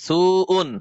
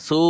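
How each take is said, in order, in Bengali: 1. শব্দটি শেষে একটি যোগ করা 'un' ধ্বনি দিয়ে শেষ হয়। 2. শব্দটি 'un' ধ্বনি ছাড়া শেষ হয়। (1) "হামজা দুই পেশ উন" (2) "থামলে আর সু উন হবে না"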